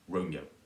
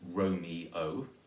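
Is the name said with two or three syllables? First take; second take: two; three. First: The name is said with two syllables. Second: The name is said with three syllables. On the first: "or two syllables" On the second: "can be either three syllables"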